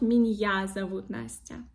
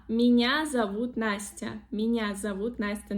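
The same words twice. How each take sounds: First: Меня broken into "min-YA"; added Y sound, wrong. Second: Меня with one soft N, no break before A; soft sound, no Y. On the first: Teacher showing the wrong sentence, extra Y in меня. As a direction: say меня with a hard N, then separate Y. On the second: Teacher modelling the correct sentence, soft N in меня. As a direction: say меня smoothly as "minya". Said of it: "There is no". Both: Shown as a demonstration.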